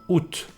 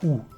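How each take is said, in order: First: The word ends with a pronounced T. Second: The word ends on the vowel, no T. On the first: "you have to pronounce the final T here" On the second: "some people will pronounce it ou"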